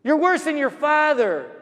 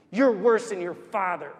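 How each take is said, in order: First: High, raised voice of a berating mother; imitated angry shouting. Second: Said in the usual way. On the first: Woman swearing as she walks, imitated shouting. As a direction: scold harshly, pitched well up. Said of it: "and she's shouting".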